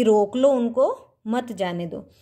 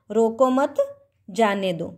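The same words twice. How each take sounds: First: "रोक लो उनको" rising, pause, falling "मत जाने दो"; pause before मत. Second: "रोको मत" together, pause, falling "जाने दो"; pause after मत. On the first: Teacher explaining the first meaning, pause before मत. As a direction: break before मत, keep मत with जाने दो. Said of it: "जाने के लिए मना किया जा रहा है". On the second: Teacher explaining the second meaning, pause after मत. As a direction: join रोको to मत, break, then जाने दो. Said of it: "दूसरे में लिखा हुआ है". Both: Shown as a demonstration.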